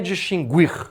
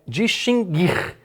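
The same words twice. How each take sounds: First: The u after g is pronounced as a glide. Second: The u after g is silent. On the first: The speaker calls it wrong. "muita gente pronuncia com erro. Não é distinguir" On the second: The speaker calls it right. "é distinguir. Esse G é um dígrafo, não há semivogal U"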